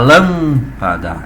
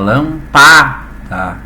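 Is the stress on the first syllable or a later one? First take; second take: first; later. First: The stress falls on the first syllable. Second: The stress falls on a later syllable. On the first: The speaker calls it right. "a gente fala lâmpada ... tônico, átono e átono" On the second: The speaker calls it wrong. "a gente não fala lâmpada"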